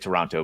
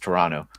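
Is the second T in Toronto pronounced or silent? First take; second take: pronounced; silent. First: The second T is clearly pronounced. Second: The second T is dropped and silent. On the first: "I would say Toronto" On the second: "that second T he says is silent"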